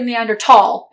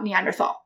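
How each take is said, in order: First: The word has a plain t sound, no th. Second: The word has a th sound. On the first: It follows the modern German spelling without an h. "Some people say" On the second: It follows the old spelling with an h. "and not"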